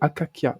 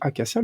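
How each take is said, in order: First: The middle consonants sound like a K. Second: The middle consonant sounds like an S. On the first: This is the supposed archaic Greek pronunciation. "le C devient un K" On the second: This is the modern everyday pronunciation. "en français courant d'aujourd'hui"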